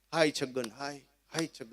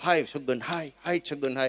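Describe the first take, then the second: First: Soft, breathy mourning chant of village women; mock wailing lament. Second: Softer, rhythmic keening; keen it like old village mothers; mock wailing lament. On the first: Comedian mimics village women wailing for Chhagan. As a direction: imitate old women keening for the dead. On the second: Comedian repeats the mourning women's lament.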